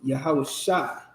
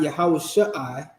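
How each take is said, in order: First: The ending is one joined vowel glide. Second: The ending is split into two separate vowel sounds. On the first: The speaker calls it right. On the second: The speaker calls it wrong. "It's not"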